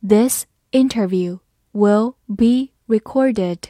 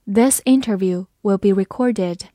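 First: Slow, word by word; slow reading. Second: Said in the usual way. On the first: Shown as a demonstration. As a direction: read it slowly for learners, pausing between words. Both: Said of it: "好，慢慢来读".

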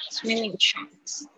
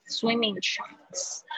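First: "swimming trunks" drawn out slowly, ending on a rising tune; slow echo for students to copy; slow repeat with a rise. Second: "swimming trunks" said slowly, each sound drawn out; slow careful classroom model; slow model reading. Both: Shown as a demonstration. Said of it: "我就是先念这些单词".

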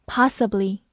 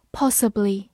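First: "possibly" with an open ah vowel; American possibly. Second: "possibly" with a rounded short o; British possibly. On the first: Teacher giving the American pronunciation for students, open ah. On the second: Teacher reading the word first, British vowel. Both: Shown as a demonstration. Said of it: "美式发音possibly".

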